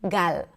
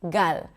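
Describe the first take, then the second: Both takes have the same delivery.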